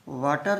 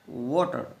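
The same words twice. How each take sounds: First: It begins with a v sound. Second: It begins with rounded lips, a w sound. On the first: The speaker calls it wrong. "वाटर नहीं, वाटर तो तो बोलते यदि ये वी से start होता" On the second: The speaker calls it right. "होठ round होने चाहिए"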